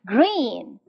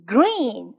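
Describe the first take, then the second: The two takes are said the same way.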